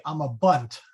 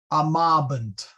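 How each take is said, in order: First: I'm a bunt said ama-BUNT; I'm a bunt as one word, landing on bunt; stress on last syllable. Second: Amabant said a-MA-bant, MA hit firmly; stress on second vowel. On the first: Teacher showing English habit, I'm a bunt stressed on bunt. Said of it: "We would probably stress the last syllable". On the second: Teacher getting it right, amabant stressed on MA. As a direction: amabant with the beat on its middle syllable. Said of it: "You wanna hit that second". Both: Shown as a demonstration.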